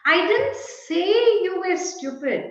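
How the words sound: The stress falls on the word say. It was expressed another way, such as in writing. "Perhaps I wrote you were stupid"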